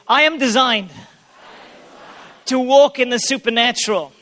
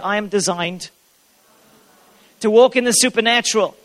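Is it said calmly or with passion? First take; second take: with passion; calmly. First: It is said with more passion and energy. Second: It is said calmly, with little passion.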